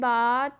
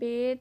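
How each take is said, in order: First: The letter name ends in an 'a' vowel. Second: The letter name ends in an 'e' vowel. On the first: The speaker calls it right. "बल्कि बा" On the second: The speaker calls it wrong. "Urdu तलफ़ुज़ से परहेज़ करें"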